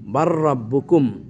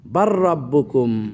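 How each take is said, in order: First: The L sound merges into a doubled R. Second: The same.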